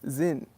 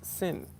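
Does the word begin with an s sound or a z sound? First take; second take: z sound; s sound. First: The word begins with a z sound. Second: The word begins with an s sound. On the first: This is how a German speaker says it. "if you're a German speaker, it's Zin" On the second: This is how an English speaker says it. "If you're an English speaker, you can, it's Sin"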